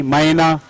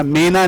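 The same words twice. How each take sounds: First: मैना with a wide ai glide; correct maina. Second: मैना with a narrow e; wrong mena. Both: Shown as a demonstration. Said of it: "मैना नहीं".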